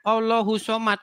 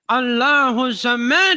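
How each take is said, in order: First: It is recited with a plain Indonesian-style pronunciation. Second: It is recited with a careful Arabic-style pronunciation. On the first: The speaker calls it wrong. "Dimarah saya" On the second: The speaker calls it right. "Bacanya bacanya harus begini"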